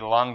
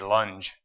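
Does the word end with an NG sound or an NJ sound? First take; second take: NG; NJ. First: The word ends with an NG sound. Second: The word ends with an NJ sound. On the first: "When they say lung" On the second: "they always say lunge"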